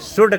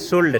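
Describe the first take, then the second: First: The L sound is left out of the word. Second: The L sound is pronounced in the word. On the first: The speaker calls it right. "एल यहाँ पे silent रहता है" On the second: The speaker calls it wrong. "शुल्ड नहीं पढ़ेंगे"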